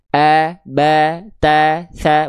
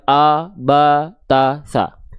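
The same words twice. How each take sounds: First: The vowel is open and bright, lips slightly smiling. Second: The vowel is darker and more rounded, lips less spread. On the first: The speaker calls it right. "mulut kita akan lebih terbuka... sedikit senyum" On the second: The speaker calls it wrong.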